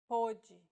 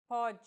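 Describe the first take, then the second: First: Pôde with a closed ô, POH-jee; Portuguese pôde. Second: Pode with an open o, PAW-jee; Portuguese pode. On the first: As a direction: close the first ô. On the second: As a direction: open the first o. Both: Shown as a demonstration.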